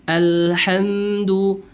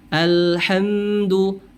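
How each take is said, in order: Both takes have the same delivery.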